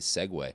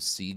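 First: The word is said as two syllables. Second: The word is said as one short syllable. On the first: The speaker calls it right. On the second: The speaker calls it wrong.

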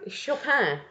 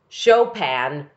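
First: The name is said with a French-style pronunciation. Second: The name is said with an English-style pronunciation. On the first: This is how the name is said in French. The speaker calls it right. "In French" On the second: This is how people in North America say it. The speaker calls it wrong. "they all pronounce it Chopin"

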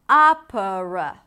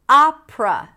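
First: The word is said with three syllables. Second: The word is said with two syllables. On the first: "instead of" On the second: "Reducing three syllables into two"

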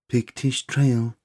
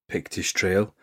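First: It imitates the MasterChef voiceover woman. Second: It is said in his own normal voice.

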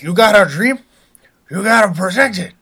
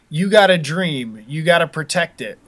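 First: It is said in a put-on gangster character voice. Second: It is said in the speaker's ordinary voice.

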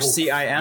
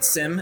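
First: It is spelled out letter by letter. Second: It is said as one word, like sim. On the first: The speaker calls it right. "or CIM" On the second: The speaker calls it wrong. "as the Canadians say"

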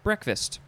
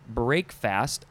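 First: It is said as one blended word. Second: It is said as two separate words. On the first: This is how most people say it. "most of us just pronounce it breakfast" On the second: This is how the word is built. "should be pronounced break fast"

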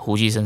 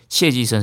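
First: The first syllable is pronounced hu. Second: The first syllable is pronounced xie. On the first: The speaker calls it right. "胡寄生才是对的" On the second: The speaker calls it wrong. "所以谢寄生是错的"

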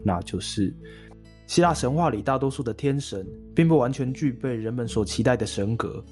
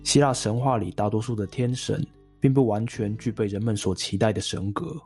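First: It starts high and sounds lively. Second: It starts lower and sounds flat and calm.

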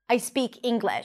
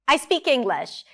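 First: The intonation is plain and neutral. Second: The intonation is lively and playful. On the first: The statement is a simple fact. "instead of" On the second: The statement comes across as funny. "Something about the intonation makes it a bit more funny"

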